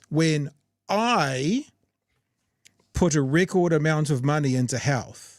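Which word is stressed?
I. The word I carries strong emphasis. "I'll say it like this"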